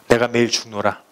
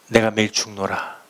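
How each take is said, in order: The two takes are said the same way.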